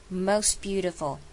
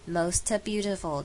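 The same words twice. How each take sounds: First: "Most" with the final t dropped; most without the t. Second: "most beautiful" with a released t, the wrong way. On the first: Teacher models "Most" without its final t. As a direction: say "Most" as mos, no t sound. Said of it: "只要发most就好". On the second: Teacher shows the wrong "most" with a clear t. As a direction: add a clear t to "most" to show the error. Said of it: "不要念成most beautiful". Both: Shown as a demonstration.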